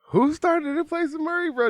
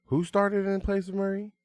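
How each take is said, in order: First: Very high, loud, incredulous squeal; worked-up demand. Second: Higher-pitched challenge; high, leading question; pointed rhetorical question. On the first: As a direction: shout the question in hyped disbelief. Repeats question louder, insistently. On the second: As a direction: ask it like everyone should know. Rhetorical question, hyping the player. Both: Real, not acted.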